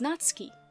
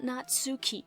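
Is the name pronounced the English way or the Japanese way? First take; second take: Japanese; English. First: The name is said with Japanese pronunciation. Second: The name is said with English pronunciation. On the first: The speaker calls it right. "It's Natsuki" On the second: The speaker calls it wrong. "I know it's not Natsuki"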